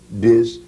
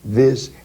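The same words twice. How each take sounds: First: The word begins with a d sound. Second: The word begins with a th sound. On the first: This is how West Indian singers said it. "became to the, this, and that" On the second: This is the standard English word. "And so the, this, that"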